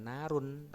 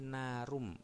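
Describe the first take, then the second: First: The final n is pronounced clearly and separately. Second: The n merges into the following m sound. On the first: The speaker calls it wrong. "Kalau idhar itu kan narun. Nah, itu harus jelas ya" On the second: The speaker calls it right. "idgham itu lebur, jadi bukan narun tapi narum"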